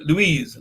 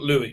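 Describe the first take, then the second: First: The name ends with a clear 'z' sound. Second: The name ends without a 'z' sound. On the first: The speaker calls it right. "the name is" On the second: The speaker calls it wrong.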